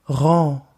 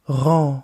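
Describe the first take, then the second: The two takes are said the same way.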